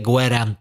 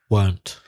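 First: The word is said with two syllables. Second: The word is said with one syllable. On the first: The speaker calls it wrong. "Don't say gwerant" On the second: The speaker calls it right. "It's one syllable, monosyllabic"

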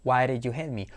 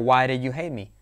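First: The d in 'did' sounds like a soft r. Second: The d in 'did' sounds like a soft r.

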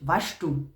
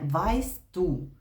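First: The words are said in the local dialect. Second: The words are said in standard German. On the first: "вони кажуть «ваш ту»" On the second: "Не «вайс ту»"

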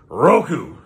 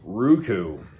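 First: The word is said forcefully, in an angry way. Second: The word is said calmly, like a question.

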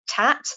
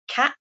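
First: The word begins with a t sound. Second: The word begins with a k sound. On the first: "children will replace the k sound with a t sound" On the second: "rather than saying cat"

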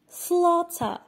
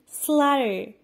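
First: It is said in a British accent. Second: It is said in an American accent. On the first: "British pronunciation" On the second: "American pronunciation"

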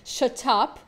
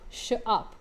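First: The t in 'shut' is clearly pronounced. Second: The t in 'shut' is dropped. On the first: "if you're British" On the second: "não pronuncia esse tezinho de qualquer forma"

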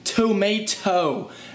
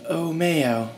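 First: The T sounds are clearly pronounced. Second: The T sounds are left out entirely. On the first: "I really pronounce my T's" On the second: "how do you say tomato without the T's?"

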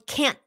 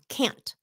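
First: The final T is stopped, not released. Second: The final T is clearly released. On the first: "when you use it in a sentence, it's a stopped T" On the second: "If you say can't just by itself, then mình nghe cái chữ T đàng hoàng"

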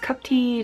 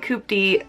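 First: The first vowel is a short uh sound. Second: The first vowel is a long oo sound. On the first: The speaker calls it right. "cupty just doesn't roll off the tongue good" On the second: The speaker calls it wrong. "I know that's not how you say it, but I would rather say coopty"

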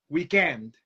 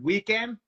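First: The stress falls on the second syllable. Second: The stress falls on the first syllable. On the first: The speaker calls it wrong. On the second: The speaker calls it right.

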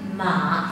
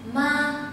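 First: The pitch dips low and then rises. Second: The pitch stays high and level. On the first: It means horse. "thanh ba con ngựa" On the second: It means mother. "thanh một ma là người mẹ"

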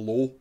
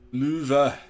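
First: The name is said with an English pronunciation. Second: The name is said with a French pronunciation. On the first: The speaker calls it wrong. "I used to always call it the Low" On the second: The speaker calls it right. "that's the French way of saying it"

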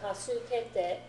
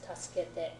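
First: The vowel after the s is fully pronounced. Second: The vowel after the s is almost silent. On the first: The speaker calls it wrong. "Instead of tasukete" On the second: The speaker calls it right. "Sometimes the U or the E disappears a little bit"

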